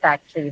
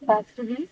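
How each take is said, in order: First: The word is said with only two syllables. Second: The word is said with three full syllables.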